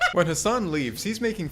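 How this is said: It is said in a Scottish accent.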